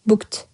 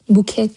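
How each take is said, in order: First: The ending is a plain t sound. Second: The ending is said as an extra syllable. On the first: The speaker calls it right. "Book, т, booked" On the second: The speaker calls it wrong. "booked деп айтпайсыздар"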